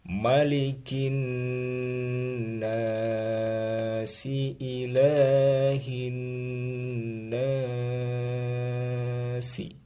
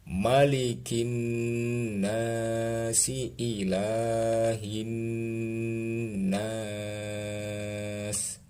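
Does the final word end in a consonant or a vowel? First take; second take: vowel; consonant. First: The last word ends with a short vowel. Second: The last word ends on a bare consonant.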